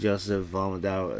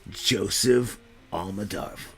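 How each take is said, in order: First: It is said in his normal voice. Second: It is said in a silly put-on voice.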